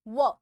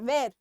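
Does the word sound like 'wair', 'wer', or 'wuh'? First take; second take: wuh; wair. First: It has a short central vowel with no r. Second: It has an 'air'-like vowel with the r. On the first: The speaker calls it right. "ये आर को हम silent कर सकते हैं" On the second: The speaker calls it wrong. "कई लोग इसको वेर भी बोलते हैं"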